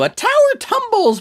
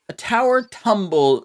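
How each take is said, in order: First: It is said in a wild, crazy character voice. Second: It is said in a plain, normal voice. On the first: The speaker calls it right. "My crazy voice" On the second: The speaker calls it wrong. "I didn't get it"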